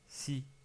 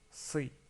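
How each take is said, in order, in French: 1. Le son s est léger et simple. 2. Le son s est plus lourd et emphatique. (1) "souvent les gens se trompent ... ils disent si" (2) "mais c'est bien si"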